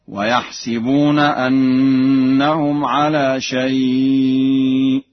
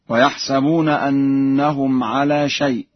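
First: "ويحسبون" with i under the sin, slow chant; Warsh reading. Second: Said in the usual way. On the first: Shown as a demonstration. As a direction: slowly recite "ويحسبون" as wa-yah-si-buna. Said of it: "بكسر السين في الفعلين معا هكذا". (تلاوة متأنية "ويحسبون" بكسر السين) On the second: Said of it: "بكسر السين في الفعلين".

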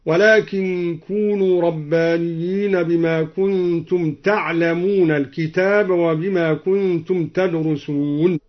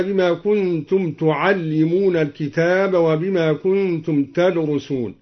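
First: تعلمون said "ta'lamuna", unvowelled ayn, single l; light ta'lamun reading. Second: Said in the usual way. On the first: Shown as a demonstration. Teacher showing al-Duri's reading, تعلمون as from "to know". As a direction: recite تعلمون with a on the t and an undoubled l. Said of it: "بفتح التاء وسكون العين وفتح اللام مخففة". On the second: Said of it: "قرأ الدوري".

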